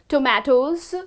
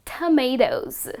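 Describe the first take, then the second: First: Tomatoes as toh-MAH-toes; wrong tomatoes. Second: Tomatoes as tuh-MAY-toes; correct tomatoes. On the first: Teacher showing the weird version, ah sound. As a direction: tomatoes with an ah in the middle. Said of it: "That just sounds weird". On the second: Teacher modelling the right version, ay sound. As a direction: tomatoes with a long ay. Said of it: "So the correct pronunciation is". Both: Shown as a demonstration.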